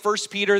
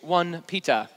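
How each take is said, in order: First: It is said in a plain American accent. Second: It is said in an imitated British accent. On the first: This is the usual local way of saying the book name. "they don't say 1 Peter" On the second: This is how people from the United Kingdom say the book name. "He's out of the United Kingdom. I love those guys"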